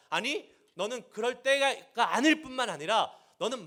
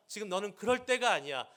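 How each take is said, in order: First: Louder, higher, 아닐 hit hard and rising; God's rebuke intensifying, louder; building rebuke. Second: Stern rebuke, stress on 때가; God scolding Jeremiah, firm. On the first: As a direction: escalate the scolding, punch 아닐. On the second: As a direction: press the point with 때가 weighted. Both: Pretend. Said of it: "다그치세요".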